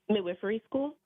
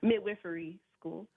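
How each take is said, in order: First: It is said fast. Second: It is said slowly.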